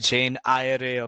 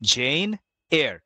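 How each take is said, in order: First: The surname is said like 'eye-a-ray'. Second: The surname is said like 'air'. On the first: The speaker calls it wrong. "এটাকে অনেকে বলে জেন আয়ারে" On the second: The speaker calls it right. "The actual pronunciation is জেন এয়ার"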